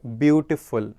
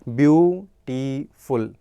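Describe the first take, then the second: First: Said in the usual way. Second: beautiful stretched with a pause between syllables; syllable pause shown. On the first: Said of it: "जिनमें हम pause लेते हैं". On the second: Shown as a demonstration. Teacher showing students the pause inside beautiful. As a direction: say beautiful slowly, pausing mid-word. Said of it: "हमने बीच में pause लिया".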